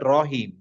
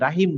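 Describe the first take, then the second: First: The first vowel is rounded, like 'o'. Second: The first vowel is an open, flat 'a'. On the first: The speaker calls it right. "বলতে হবে রহিম" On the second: The speaker calls it wrong. "রাহিম না"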